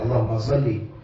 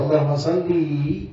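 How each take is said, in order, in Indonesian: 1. Vokal akhir shalli itu pendek. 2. Vokal akhir shalli dibaca panjang. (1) "sholli itu kan perintah untuk mudzakkar" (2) "ada tambah ya"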